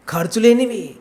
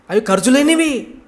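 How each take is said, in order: First: Said in the usual way. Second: "లేనివి" said high and loud with a falling tone; emphatic stress. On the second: Shown as a demonstration. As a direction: drive home the word "లేనివి". ("లేనివి" పై గట్టి ఒత్తిడి)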